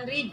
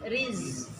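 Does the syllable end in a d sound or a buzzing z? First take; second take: d sound; buzzing z. First: The syllable ends in a d sound. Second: The syllable ends in a buzzing z sound. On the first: The speaker calls it wrong. "Bukan rid" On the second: The speaker calls it right. "tapi riz. Ada desisnya"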